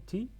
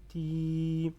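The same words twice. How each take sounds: First: TI with a brief, unprolonged i; short ti. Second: TI with the i held long and level; prolonged ti. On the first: Teacher gives ta with kasra alone, short i. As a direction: say TI short, as the bare syllable. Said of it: "ça donne ti". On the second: Teacher shows learners ya lengthening kasra, long i. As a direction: stretch out the i of TI. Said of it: "pour prolonger le kasra". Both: Shown as a demonstration.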